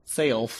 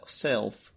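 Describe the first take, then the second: First: SELF in an odd accent, vowel stretched to "sayulf"; accented "Self" with a gliding AY vowel; unplaceable accent. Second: Said in the usual way. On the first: Real, not acted. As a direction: say "Self" as "saylf", an accidental accent. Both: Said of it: "what accent that was".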